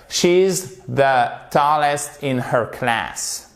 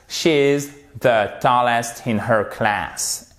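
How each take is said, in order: First: She's the tallest said slowly for learners; slow, clear teacher reading; slow model reading. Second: Said in the usual way. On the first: Shown as a demonstration. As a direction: read it out slowly, word by word. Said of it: "model sentence read slowly". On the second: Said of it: "model sentence repeated".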